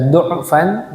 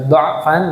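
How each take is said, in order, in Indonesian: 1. Vokal pertamanya bunyi u. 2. Vokal pertamanya bunyi a. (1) "Boleh dibaca du'fan" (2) "boleh dibaca dha'fan"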